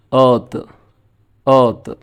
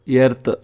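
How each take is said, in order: First: ఎర్త్ with a long central vowel and no r; correct British earth. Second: ఎర్త్ with a clear e and a rolled r, Telugu style; wrong Telugu-style ఎర్త్. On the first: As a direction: say ఎర్త్ as a long schwa with the r dropped. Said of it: "ఆర్ పలకపోయినా పర్వాలేదు". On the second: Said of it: "అది wrong". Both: Shown as a demonstration.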